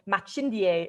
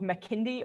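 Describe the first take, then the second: First: The middle consonant is a ch sound. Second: The middle consonant is a hard k sound. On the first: This is the proper local way of saying it. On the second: This is the everyday non-native way of saying it.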